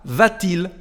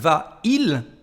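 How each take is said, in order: First: A t sound links the two words. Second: The two words meet with no consonant between. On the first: The speaker calls it right. "mucho mejor cuando se pronuncia de esa manera" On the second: The speaker calls it wrong. "no está muy agradable escuchar va il"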